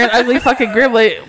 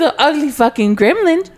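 First: It is said in a blunt, harsh tone. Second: It is said in a fond, cooing tone. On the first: It comes across as a real insult. The speaker calls it wrong. "if you tell her" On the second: It comes across as loving teasing. The speaker calls it right. "But if you go, oh my God, little Penny"

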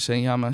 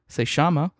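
First: It is said in a general Spanish accent. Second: It is said in an Argentine Spanish accent. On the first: "I pronounce it" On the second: "because we're watching a show from Argentina, sometimes I'll say"

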